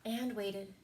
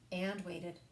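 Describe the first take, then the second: No difference in how they are said.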